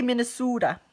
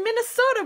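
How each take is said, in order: First: Minnesota with a long "oo", Minne-SOO-da; Minnesota accent. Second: Said in the usual way. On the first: Retold or imitated. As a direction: imitate friends' Minnesotan vowel, Minne-soo-da. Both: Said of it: "They would say Minnesota".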